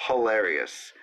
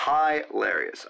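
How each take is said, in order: First: Said in the usual way. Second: "Hilarious" slow, first syllable stretched as "high"; emphatic HILARIOUS. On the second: Real, not acted. Praising the sketch, "Hilarious" slowly as HIGH-larious.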